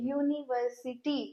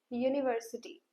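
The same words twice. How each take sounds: First: "यूनिवर्सिटी" said softly, leaning on the opening y sound. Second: "यूनिवर्सिटी" said softly and clearly, starting with a y sound; careful pronunciation. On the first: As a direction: let them hear the y. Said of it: "य sound आ रहा है". (शुरुआती 'य' पर ध्यान देकर बोलना) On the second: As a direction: sound out the word. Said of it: "यूनिवर्सिटी word मैं प्रोनाउंस कर रही हूँ". (यूनिवर्सिटी को साफ़ 'यू' से बोलना) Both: Shown as a demonstration.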